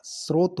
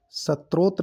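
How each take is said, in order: First: स्रोत said "srot"; correct pronunciation. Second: सत्रोत said "sa-trot"; wrong pronunciation. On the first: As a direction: run s straight into r in स्रोत. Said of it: "स्रोत होता है". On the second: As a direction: put a t before r in सत्रोत. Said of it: "सत्रोत नहीं होता". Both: Shown as a demonstration.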